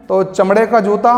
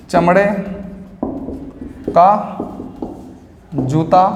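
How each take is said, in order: First: Said in the usual way. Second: One word at a time with long gaps; slow dictation. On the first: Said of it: "teacher gives example phrase". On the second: Shown as a demonstration. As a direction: spell it out slowly for the class to copy. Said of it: "teacher dictates word by word". (रुक-रुककर धीमा लिखवाना)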